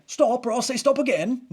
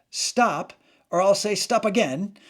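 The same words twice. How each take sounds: First: High, loud, hammed-up British policeman; comic British accent pitched way up; terrible British accent. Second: Raised, louder mock police warning; higher-pitched comic order to halt; Monty Python police skit. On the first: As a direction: badly imitate a British sketch-comedy bobby's warning. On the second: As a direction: call it out like a sketch-comedy policeman. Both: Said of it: "I know it was a terrible accent".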